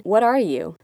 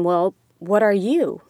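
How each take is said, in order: First: Said in the usual way. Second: Louder, slow, with "you" stressed; turned-back question. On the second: Retold or imitated. Woman returning a man's question, pointed stress on "you". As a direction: throw it back, landing hard on "you". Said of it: "I said it back".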